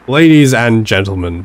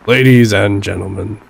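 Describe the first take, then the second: First: The deep voice has only slight gravel. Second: The deep voice has heavy gravel.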